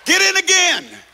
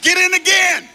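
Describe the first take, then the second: First: High loud insistent get in again, in stressed; insistent command. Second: Loud high shout of get in again; shouted command. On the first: Preacher insisting to the congregation, loud and high. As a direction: drive the word in home. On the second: Preacher shouting at the congregation to get baptized again. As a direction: bellow get in again at him. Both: Acted.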